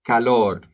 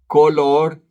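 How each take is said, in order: First: Teacher answers color with calor for learners; contrast calor with color. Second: "Color" with a clear Spanish O, raised and louder; teacher sets color against calor for students; contrast color with calor. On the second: Color said sharply against calor. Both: Shown as a demonstration. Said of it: "Not to be confused with calor".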